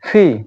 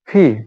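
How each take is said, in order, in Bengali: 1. প্রথম ধ্বনিটি শ্বাসযুক্ত ph। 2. প্রথম ধ্বনিটি শ্বাসযুক্ত ph।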